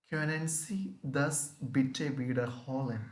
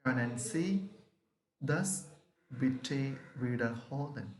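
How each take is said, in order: First: Können Sie das bitte wiederholen? with Können stressed and falling; German question demo. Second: Können Sie rising, bitte wiederholen falling; German question repeat. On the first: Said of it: "question form". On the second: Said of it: "Once again, try". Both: Shown as a demonstration.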